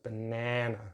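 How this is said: The middle vowel is a short 'a' as in 'nan'. "slightly different short vowel sound in the middle. It's like nan"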